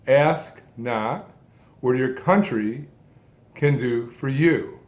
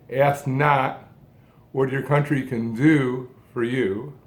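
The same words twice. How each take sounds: First: Broken-up phrasing, weight on "country" and a falling "you"; stress on COUNTRY. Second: "ask not" as one phrase, then lift "do" before a short break; phrase it with the emphasis landing on "do"; stress on DO. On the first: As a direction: pause after "ask", lift "country" and break, then "can do for you". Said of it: "different emphasis, different phrasing". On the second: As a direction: lean on "do", voice rising, then set "for you" apart. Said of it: "These lines could be said any number of ways". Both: Shown as a demonstration.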